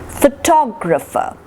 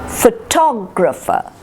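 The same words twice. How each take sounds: The two takes are said the same way.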